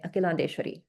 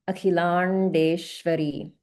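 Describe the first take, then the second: First: It is said quickly, without holding any sounds. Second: The long vowels and consonants are clearly held. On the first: This is how it is said in everyday conversation. The speaker calls it wrong. "it'll just roll off the tongue, but it's it's not really being enunciated clearly" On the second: This is how it should be said when chanting. The speaker calls it right. "the ah is being held"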